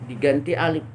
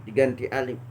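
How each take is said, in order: Both takes have the same delivery.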